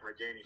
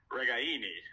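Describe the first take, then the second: First: The name is pronounced the English way. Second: The name is pronounced the Italian way. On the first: The speaker calls it wrong. "we've all been saying Regaini for 5 years" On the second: The speaker calls it right. "the authentic Italian pronunciation is"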